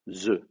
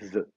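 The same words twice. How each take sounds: First: The word starts with a z sound. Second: The word starts with a voiced th sound. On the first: "on ne sait pas dire the. Alors, on dit the" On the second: "Vous mettez la langue entre les dents, vous faites vibrer"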